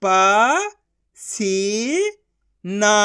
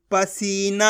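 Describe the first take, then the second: First: Slow, each syllable of प-सी-ना pulled apart; teacher sounding out a word. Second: Said in the usual way. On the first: Shown as a demonstration. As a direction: sound out पसीना as प, सी, ना with gaps. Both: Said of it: "एक एक अक्षर का उच्चारण करके".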